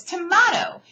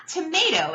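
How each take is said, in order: First: "tomato" as tuh-MAH-toe, pitched high; insisted-on pronunciation. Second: "tomato" as tuh-MAY-toe; rejected pronunciation. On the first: Teacher acting out the debate, insistent tuh-MAH-toe for "tomato". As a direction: open AH in the middle of "tomato". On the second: Teacher acting out the debate, "tomato" as tuh-MAY-toe. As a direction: say "tomato" with a long AY in the middle. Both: Shown as a demonstration. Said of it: "It's not tomato, it's tomato".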